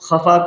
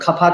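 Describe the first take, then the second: First: The word starts with a rasping throat sound. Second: The word starts with a plain 'k' sound. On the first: The speaker calls it right. "जहाँ पे नुक़्ता लगता है" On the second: The speaker calls it wrong. "खफ़ा कह देते हैं"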